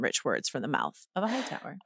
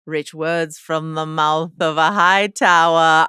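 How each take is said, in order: First: Soft, low throwaway repeat of a quote; quiet aside. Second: Slow, weighty, declamatory quote; grand recitation. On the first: Host repeating the email's line, quiet aside. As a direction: drop it low, much softer. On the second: Podcast host quoting a listener's email, grand and slow. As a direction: read it out slowly and grandly. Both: Acted.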